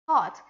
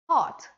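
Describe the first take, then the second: First: The R after the vowel is silent. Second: The R after the vowel is silent.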